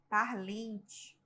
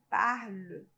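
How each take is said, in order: First: The final n and t sounds are pronounced. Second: The final n and t sounds are silent. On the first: The speaker calls it wrong. "o aluno ele tem a tendência a pronunciar o N T" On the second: The speaker calls it right. "Mas não se pronuncia, tá? Se pronuncia só o E"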